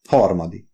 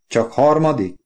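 First: Sheepish admission. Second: Higher, mildly disappointed "Csak harmadik?"; questioning. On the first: Oliver confesses his class rank, mildly sheepish. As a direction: admit "Harmadik." with slight embarrassment. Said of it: "majdnem szégyeltem bevallani". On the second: Wife questions Oliver's class rank, unimpressed. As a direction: query "Csak harmadik?" with a pitch lift. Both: A narrator's reading.

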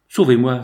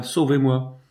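First: A louder, desperate cry for help; "Sauvez-moi" cried out louder. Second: Repeated "sauvez-moi" dropping back in volume; a quieter, pleading echo; softer plea. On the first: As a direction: throw "Sauvez-moi" out loud like a plea. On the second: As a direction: let the second "sauvez-moi" fall away softly. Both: A narrator's reading. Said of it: "s'écrie".

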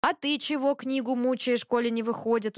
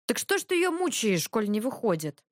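First: Mildly amused comeback, somewhat raised pitch; wry retort. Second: Needling question. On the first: Ivan throwing the question back, wry. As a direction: turn the question back with understated irony. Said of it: "усмехнулся Иван". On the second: Dragomir questioning Ivan's fiddling, needling. Brother needles Ivan over his work. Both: A narrator's reading.

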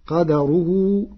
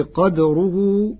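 First: Said in the usual way. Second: قدره with a silent dal, qadruhu, said slowly; sukun on dal. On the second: Shown as a demonstration. (قدره بإسكان الدال) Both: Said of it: "بإسكان الدال".

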